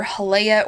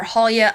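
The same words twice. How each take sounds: First: "Halea" as huh-LAY-uh, stress on LAY; "Halea" with the middle rhyming with "day"; pronunciation huh-LAY-uh. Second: "Halia" as HAL-ya, stress up front; "Halia" ending in a quick "-ya", no "ay"; pronunciation HAL-ya. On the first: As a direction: say "Halea" in three syllables with a long "ay". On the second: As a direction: say "Halia" with the first syllable stressed. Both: Shown as a demonstration. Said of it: "I never know what to call her".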